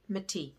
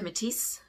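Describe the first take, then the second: First: The final S sound is left silent. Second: The final S sound is pronounced. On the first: The speaker calls it right. "You don't pronounce the S unless there's an E on the end" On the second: The speaker calls it wrong. "A lot of people say Métis, but it's not"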